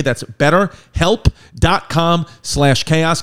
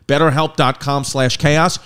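First: Betterhelp dot com slash chaos spelled out very slowly, loud, word by word; slow URL emphasis. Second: Betterhelp dot com slash chaos read at ad pace, rising at the end; ad read URL. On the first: Host repeating the promo link for listeners, slow and loud. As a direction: land each part of the betterhelp link so they remember it. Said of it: "URL repeated slowly". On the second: Host giving listeners the promo link, quick ad voice. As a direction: drop the URL in passing with a lift on chaos. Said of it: "first read of promo URL". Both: Shown as a demonstration.

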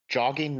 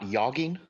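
First: Said in the usual way. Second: Yogging said with a Y sound instead of J; yogging, J turned into Y; mispronounced with Y. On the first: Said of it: "not yogging". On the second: Shown as a demonstration. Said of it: "and it's jogging".

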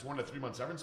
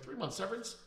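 First: Said in the usual way. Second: Incredulous. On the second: Retold or imitated. Echoing an ex-employee's demand, incredulous high question. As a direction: pitch leaps much higher on severance?.

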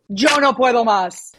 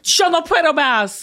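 First: Even, fluent Spanish model; native Spanish accent. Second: Emphatic learner's Spanish; attempted Spanish accent. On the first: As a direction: model the Spanish sounds plainly. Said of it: "one phrase in Spanish". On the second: Southerner echoing her teacher, imitation Spanish accent. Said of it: "I think you got there". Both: Shown as a demonstration.

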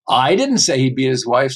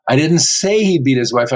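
First: I didn't say he beat his wife, with I punched; stress on I. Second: I didn't say he beat his wife, with say punched; stress on SAY. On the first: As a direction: hit the word I, not me. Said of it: "Somebody might have said it, but it wasn't me". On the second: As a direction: hit the word say. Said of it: "I might have implied it, but I didn't say that". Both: Shown as a demonstration.

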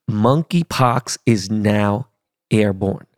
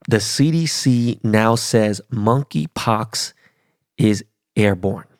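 First: Slowed-down repeat. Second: Said in the usual way. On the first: Shown as a demonstration. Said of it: "Let me say that again to you slow motherfuckers". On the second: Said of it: "Let me say that again".

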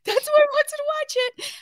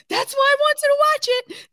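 First: Very high, quicker laughing squeal; faster hysterical repeat. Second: Very high squealing laughter; hysterical laughing. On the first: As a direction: rattle it off again, still cracking up. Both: Real, not acted. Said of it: "now I'm hysterical laughing".

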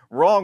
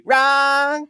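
First: Said in the usual way. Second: "Wrong" stretched on a high, wide "aaa"; mocking drawn-out vowel. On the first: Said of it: "who knew that wrong was spelled". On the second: Shown as a demonstration. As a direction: mimic "Wrong" as a long, high "raaang". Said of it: "wrong was spelled W R A A A".

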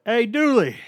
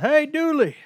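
First: Loud, high, casual call of hey, Dooley; mocking Malik's greeting. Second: Much higher, loud drawn-out hey, Dooley; mocking Malik's greeting. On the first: Malik greeting the coach without his title, loud casual call. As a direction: sing out hey, Dooley like a buddy. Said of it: "Malik was always like". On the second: Malik always greeting the coach, loud high stretched call. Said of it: "He's always like".

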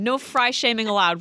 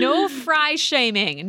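First: Said in the usual way. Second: Slow, mock-stern "No fry shaming."; slow mock decree. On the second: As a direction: lay down the rule slowly and deliberately. Joking rule about fries.

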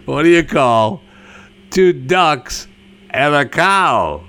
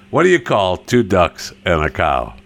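First: Higher, broken into deliberate chunks with pauses; insistent joke retelling. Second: Said in the usual way. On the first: Pretend. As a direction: punch out "What do you call", "two ducks", "and a cow" separately. Retells it after "No, seriously.

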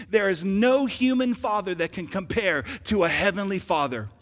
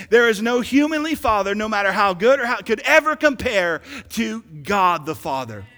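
First: Said in the usual way. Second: Louder, fuller preaching on the second try; preached louder. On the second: Shown as a demonstration. Preacher retrying the line for the church, louder. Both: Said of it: "Let me try it again".

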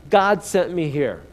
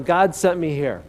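First: GOD stressed, slow and firm; slow emphatic call for the crowd; slow call-and-response. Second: GOD stressed at normal pace; plain-paced repeat stressing GOD; repeated declaration. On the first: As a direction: lead the congregation, stressing GOD. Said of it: "Repeat after me". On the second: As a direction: say it again, GOD up front. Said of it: "One more time". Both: Shown as a demonstration.

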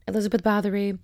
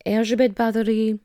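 First: Said in the usual way. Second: Elzbiet said as ELZH-bee-et; Polish pronunciation. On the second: Shown as a demonstration. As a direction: Elzbiet Bathory, Polish-style. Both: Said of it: "my pronunciation".

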